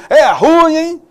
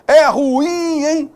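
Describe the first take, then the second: First: "ruim" as one syllable stressed on RU, high and loud; colloquial pronunciation. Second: "ruim" in two syllables, ru-IM, high pitched; correct pronunciation. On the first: Teacher imitating everyday slang, loud high one-beat ruim. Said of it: "na nossa linguagem coloquial aí". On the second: Teacher redoing the slang phrase correctly, high ru-IM. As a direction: stretch and stress the IM of "ruim". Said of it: "a pronúncia dessa palavra corretamente". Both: Shown as a demonstration.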